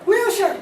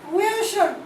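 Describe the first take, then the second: First: "Wheelchair" slurred toward "wilshan"; sounds like enchilada. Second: "wheelchair" slurred into "wishad"; slurred word. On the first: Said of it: "We have only one enchilada left". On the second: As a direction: let "wheelchair" blur, ch swallowed. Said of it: "I tend to slur words". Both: Shown as a demonstration.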